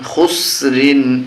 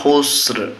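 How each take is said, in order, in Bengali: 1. শব্দটির শেষে একটি যোগ করা 'in' ধ্বনি আছে। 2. শব্দটি 'r' ধ্বনিতে হঠাৎ শেষ হয়।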